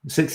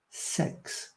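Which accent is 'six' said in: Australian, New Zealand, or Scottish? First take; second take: Australian; Scottish. First: The vowel is a clear short i sound. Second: The vowel sounds close to the e in sex. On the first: "Six is the way you should say it. It's the proper way" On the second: "I think they say sex"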